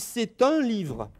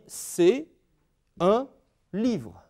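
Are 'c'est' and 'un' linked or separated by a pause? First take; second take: linked; pause. First: The words run together with a linking t sound. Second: A short pause separates c'est from un. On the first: "le petit soulignement qui indique la liaison. On dit" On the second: "faire une pause entre les deux"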